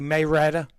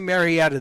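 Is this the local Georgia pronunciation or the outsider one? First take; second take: local; outsider. First: It uses the local Georgia pronunciation of the name. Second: It uses the outsider pronunciation of the name. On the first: This is how locals say it. The speaker calls it right. "they say Mayretta" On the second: This is not how locals say it. The speaker calls it wrong. "they don't say Marietta"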